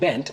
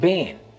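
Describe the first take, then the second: First: The final T is clearly pronounced. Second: The final T is softened away.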